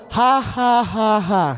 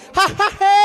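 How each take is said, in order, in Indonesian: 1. Tawa itu memakai vokal terbuka 'ah'. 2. Tawa itu memakai vokal 'eh' sebagai gantinya. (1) "orang tatawa normal tuh" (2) "Kalau ngoni dengar ada orang tatawa begini, ... itu orang utara"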